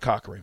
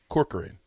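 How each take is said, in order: First: The name is said with two syllables. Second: The name is said with three syllables. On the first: The speaker calls it wrong. "It's not Cochran" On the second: The speaker calls it right. "It's Corcoran"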